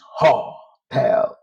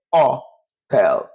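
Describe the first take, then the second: First: "hotel" as HO-tel with a strong h; H sounded, wrong way. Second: "hotel" as oh-TEL, no h at all; silent H. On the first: Teacher showing learners what to avoid, h pronounced. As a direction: say "hotel" slowly in two parts, h sounded. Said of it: "you don't pronounce hotel". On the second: Teacher correcting for Spanish learners, h left silent. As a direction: say "hotel" in two parts starting on the bare o. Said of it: "H in Spanish is silent". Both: Shown as a demonstration.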